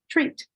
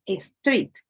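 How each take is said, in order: First: The word begins directly with the s sound. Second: An extra e vowel comes before the s. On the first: The speaker calls it right. "pronounce the word street" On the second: The speaker calls it wrong. "as a street"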